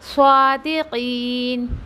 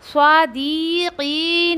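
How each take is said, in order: First: The vowel after the q is drawn out. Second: The vowel after the d is drawn out. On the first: The speaker calls it right. "काफ को मत देना है, दाल को ना" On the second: The speaker calls it wrong. "ऐसा नहीं पढ़ने का"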